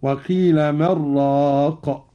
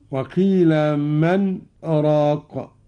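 First: Slow recitation, من flowing straight into راق with no stop; without pause. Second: Slow recitation, a brief silent stop after من before راق; recited with a pause. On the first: Teacher showing Qalun's reading without the pause. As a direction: join من راق as one. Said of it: "قرأ قالون بدون سكت هكذا". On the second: Teacher reciting the verse with the sakt pause. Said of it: "قوله تعالى". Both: Shown as a demonstration.

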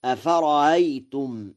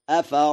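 First: أفرأيتم with the second hamza eased, short, not stretched; softened second hamza. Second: أفرأيتم with the second hamza turned into a long held "aa"; hamza lengthened to alif. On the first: Teacher showing the second reading, أفرأيتم with a short, eased second hamza. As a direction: glide lightly over the second hamza in أفرأيتم. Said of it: "والثاني تسهيلها".

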